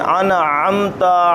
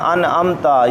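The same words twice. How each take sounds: First: The middle consonant is a deep throat sound. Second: The middle consonant is a plain glottal stop. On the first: The speaker calls it right. "आइन पर खुसूसी गौर करें।" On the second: The speaker calls it wrong. "ये आइन बना ही नहीं, हमज़ा बन गया।"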